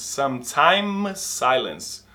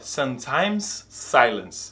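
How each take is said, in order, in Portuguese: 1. Os dois sons de S se juntam em um só. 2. Os dois sons de S são pronunciados separadamente. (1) "Ele só fala um S" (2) "ele não fala sometimes silence"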